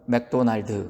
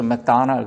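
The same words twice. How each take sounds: First: The name is said with a Korean accent. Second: The name is said with an American accent. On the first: "한국에 가면 뭐라 그래요?" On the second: "우리가 미국에서 맥도날드 그러지만"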